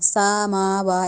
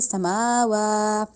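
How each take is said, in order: First: The vowel after the first consonant is lengthened. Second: The vowel after the second consonant is lengthened. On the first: The speaker calls it wrong. "सीन को लंबा नहीं करना, समावा ऐसे नहीं" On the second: The speaker calls it right. "लंबा करेंगे समावा इस तरह"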